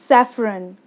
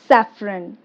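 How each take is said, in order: No difference in how they are said.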